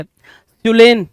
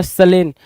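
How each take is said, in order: First: सुलेन with a "su" first syllable, drawn out; "soo" first vowel. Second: सलेन with a short "suh" first syllable; "suh" first vowel. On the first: Teacher offers students one reading, सुलेन with a "u" vowel. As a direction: say सुलेन as su-LEN, stretched. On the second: Teacher offers students the alternative reading, सलेन with "suh". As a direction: say सलेन as suh-LEN, no "u" sound. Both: Shown as a demonstration. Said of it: "या सलेन".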